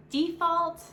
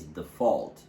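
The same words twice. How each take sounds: First: DEfault, first syllable long and high; stress on first syllable. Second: DeFAULT, voice lifting on the second syllable; stress on second syllable. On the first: Teacher showing learners the noun, stress on DE in default. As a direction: hit the DE in default. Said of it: "the stress will falls on the first syllable". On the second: Teacher showing learners the verb, stress on FAULT in default. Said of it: "voice goes slightly higher in the second syllable". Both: Shown as a demonstration.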